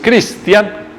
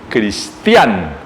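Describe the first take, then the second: First: The stress is on the first syllable. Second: The stress is on the last syllable. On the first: This is the English way of saying the name. The speaker calls it wrong. "no es cristian como en el inglés" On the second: This is the Danish way of saying the name. The speaker calls it right. "se pronuncia como con una tilde en la A"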